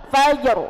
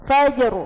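Both takes have the same delivery.

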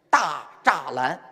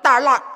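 First: The name is read with its standard written pronunciation. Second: The name is said in the local Beijing way. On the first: "有个地方叫大栅栏" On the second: "北京人叫大栅栏"

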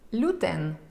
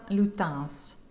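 First: The name ends without an s sound. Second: The name ends with an s sound.

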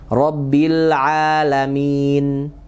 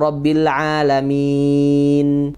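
First: The vowel before the final n is held briefly. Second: The vowel before the final n is held moderately.

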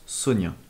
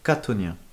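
First: The word starts without a k sound. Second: The word starts with a k sound. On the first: "En Amérique, le mot chthonien se prononce sonien" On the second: "en Angleterre, il est prononcé catonien, à la manière du grec original"

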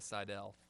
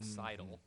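First: The name is said with English-style pronunciation. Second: The name is said with German pronunciation. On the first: This is the changed form of the name. "she changed it to Seidel" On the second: This is the original form of the name. "the correct German way of Seidel"

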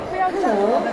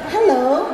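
First: It sounds warmly recognizing. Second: It sounds surprised.

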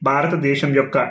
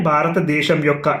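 The two takes are said the same way.

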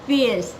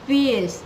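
The two takes are said the same way.

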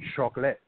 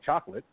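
First: The word is said with a French accent. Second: The word is said with an English accent. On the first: "That's actually the French pronunciation" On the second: "we don't say with that accent, we say chocolate"

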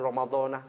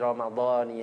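First: The word ends with an 'a' vowel. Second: The word ends with an 'i' vowel. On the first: The speaker calls it wrong. "kalau ada ahli nahwu sharaf disalahkan" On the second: The speaker calls it right. "Yang benar itu"

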